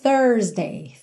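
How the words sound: The R after the vowel is pronounced.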